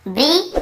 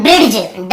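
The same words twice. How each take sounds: First: ब्रिज with a silent D, just brij; ब्रिज said properly, no D heard; correct pronunciation. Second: ब्रिज with the D sounded, like bridj-d; ब्रिज said wrongly, with a clear D before the J; wrong pronunciation. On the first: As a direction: say ब्रिज slowly, ending cleanly on the J sound. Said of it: "डी को नहीं पढ़ते, केवल ब्रिज". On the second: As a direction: say ब्रिज sounding an extra ड at the end. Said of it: "क्योंकि डी लिखा तो ब्रिज ऐसे पढ़ देते हैं". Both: Shown as a demonstration.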